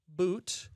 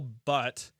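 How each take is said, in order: First: The vowel is long, like in 'boot'. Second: The vowel is short, like in 'but'. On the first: The speaker calls it right. "now I've got it. It's pronounced Boot" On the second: The speaker calls it wrong. "I mispronounced his name, called him Daniil Butt"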